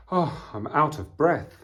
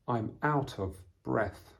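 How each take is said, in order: First: High, loud puffed-out exclamation; out of breath. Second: Said in the usual way. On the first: Acted. Teacher acting exhausted after running home, out of breath. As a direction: puff it out as if just run. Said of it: "find it hard to breathe".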